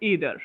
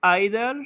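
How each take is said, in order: First: "either" said EE-thur, with a long "ee" vowel; "either" as Americans say it, EE-thur; "either" opening on a long "ee": EE-thur. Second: "either" said EYE-thuh, with a long "eye" vowel; "either" as British speakers say it, EYE-thuh; "either" opening on the sound of "eye": EYE-thuh. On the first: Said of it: "neither বা either উচ্চারণ করে আমেরিকানরা". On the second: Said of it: "either এটা হচ্ছে স-, long vowel". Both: Shown as a demonstration.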